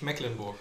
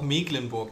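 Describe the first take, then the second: First: The first vowel is short. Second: The first vowel is long. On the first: The speaker calls it wrong. "nicht Mecklenburg" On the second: The speaker calls it right. "wir sagen hier ja auch Mecklenburg"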